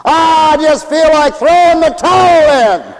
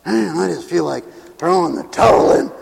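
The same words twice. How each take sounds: First: Hammed-up cry of surrender; exasperated giving up. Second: Mock-weary sigh of surrender; tired, unraised voice of defeat; weary giving up. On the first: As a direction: cry out as if ready to quit. Acts someone giving up. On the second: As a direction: grumble it like someone worn out. Acts giving up, second take.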